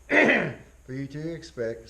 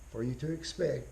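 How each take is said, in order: First: "for you to expect" said louder and slow, each word weighted; emphatic repeat. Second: Said in the usual way. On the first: Shown as a demonstration. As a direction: drive the phrase home slowly for the class. Lecturer repeats key phrase.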